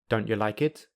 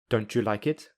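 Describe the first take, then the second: First: The t is replaced by a glottal stop. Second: The t and y merge into ch. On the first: "I will say them with the glottal plosive" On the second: "I will use linking"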